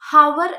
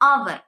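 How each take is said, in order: First: The word starts with an h sound. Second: The word starts directly with a vowel. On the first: The speaker calls it wrong. "ഹവർ എന്ന് പറയരുത്" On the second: The speaker calls it right. "എച്ച് silent ആണ്"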